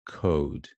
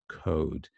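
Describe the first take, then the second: First: The vowel is said with moderate lip rounding. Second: The vowel is said with moderate lip rounding.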